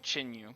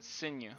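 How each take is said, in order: First: The name does not begin with an S sound. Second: The name begins with an S sound. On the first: The speaker calls it wrong. "I was saying Chinyu" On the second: The speaker calls it right. "it's like an S. So Senya"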